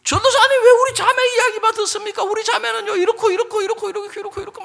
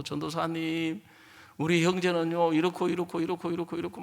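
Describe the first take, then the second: First: Very high, loud rapid-fire grievance; mock outraged protest. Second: Mock complaint. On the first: Husband protesting to the evangelist about his wife, mock outrage. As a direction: burst out in hammed-up protest and reel off complaints. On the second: Sister telling the evangelist on her husband, subdued complaint. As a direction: reel off a wife's complaints in a subdued voice.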